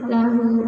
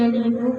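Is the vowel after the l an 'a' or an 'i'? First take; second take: a; i. First: The first vowel is an open 'a'. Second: The first vowel is a high 'i'. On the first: The speaker calls it right. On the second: The speaker calls it wrong.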